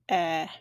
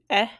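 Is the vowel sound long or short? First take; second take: long; short. First: The vowel is held for longer. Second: The vowel is said briefly. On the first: "long vowel that'll be eh. So it just holds it a little longer" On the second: "short vowel"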